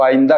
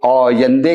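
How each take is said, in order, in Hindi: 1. पहला स्वर हमज़ा के साथ खुलता है, और 'a' पर खत्म होता है। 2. पहला स्वर गोलाई लिए हुए है, हमज़ा नहीं है, और 'e' पर खत्म होता है। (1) "हम कहेंगे तो आइंदा कहेंगे और हमजा लगाएंगे" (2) "ईरानी कहेगा तो औयंदे कहेगा और हमजा नहीं लगाएगा"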